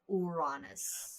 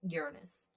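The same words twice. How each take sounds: First: The name has a Greek-style pronunciation. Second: The name has its usual English pronunciation.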